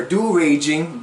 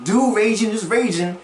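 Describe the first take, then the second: First: Said in the usual way. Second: Mocking emphasis on Raging, said as the word raging; leaning hard on Raging; stress on Raging. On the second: Shown as a demonstration. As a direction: Do Raging pitched up high, Raging punched as a pun on rage.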